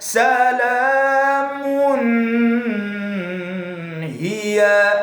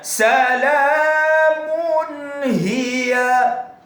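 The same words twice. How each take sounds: First: The n is blurred into the next sound. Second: The n is pronounced clearly and separately. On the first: The speaker calls it wrong. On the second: The speaker calls it right.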